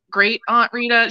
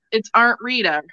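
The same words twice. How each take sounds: First: Said in the usual way. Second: Aunt said as "arnt". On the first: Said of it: "my great". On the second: Shown as a demonstration. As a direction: put an R in Aunt: "arnt Rita". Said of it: "Anyway, um".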